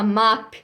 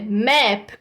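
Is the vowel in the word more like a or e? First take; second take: a; e. First: The vowel sounds like an open a. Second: The vowel sounds closer to an e. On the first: The speaker calls it wrong. "A gente não fala map" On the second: The speaker calls it right. "com som de E"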